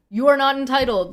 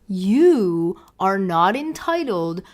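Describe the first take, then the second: First: The phrase is spoken at a normal pace. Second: The phrase is spoken slowly and deliberately.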